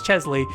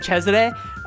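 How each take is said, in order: First: The name is said with English-style syllables. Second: The name is said with Japanese-style syllables. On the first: The speaker calls it right. "in English it is Chesley" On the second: The speaker calls it wrong. "the weird Japanese way to say it"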